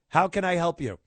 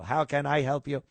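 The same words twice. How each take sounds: First: It is said in a relaxed, human voice. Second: It is said in a stiff, robotic voice.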